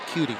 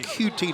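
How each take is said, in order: First: It is said as one blended two-syllable word. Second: It is said as two separate letter names. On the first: The speaker calls it wrong. "not cutie" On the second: The speaker calls it right. "Q T, not cutie"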